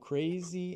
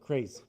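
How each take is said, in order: First: The final vowel is clearly and fully heard. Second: The final vowel is weakened and almost dropped. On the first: The speaker calls it right. "the last sound of E... It always wants to be heard" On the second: The speaker calls it wrong. "if it were Portuguese, we would just let it die"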